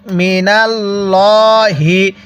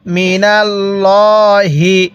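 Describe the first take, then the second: First: মিনাল্লাহি very slowly, the ল্লা thick and full; heavy lam. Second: মিনাল্লাহি again very slowly, ল্লা thick; heavy lam. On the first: Teacher showing students the thick lam of Allah, slowly. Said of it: "এই লামটা আমরা মোটা করে পড়ব". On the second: Teacher repeating the thick-lam word for students. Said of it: "তাহলে আমরা এখানে মোটা করে পড়ব". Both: Shown as a demonstration.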